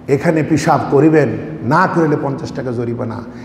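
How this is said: The pause comes before the word 'না'.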